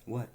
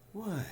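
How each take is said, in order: First: It sounds plain and neutral. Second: It sounds warm and friendly. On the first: The speaker simply asks what is wanted. "Neither mean nor nice or whatever. Straightforward" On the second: The speaker is happy and receptive. "Non-threatening, friendly, welcoming"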